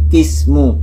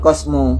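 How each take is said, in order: First: The first vowel is an i sound. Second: The first vowel is an a sound. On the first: The speaker calls it right. "tapi kismu" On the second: The speaker calls it wrong. "bukan kosmu"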